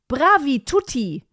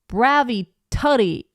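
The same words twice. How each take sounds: First: It is said with a German accent. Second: It is said with an American accent.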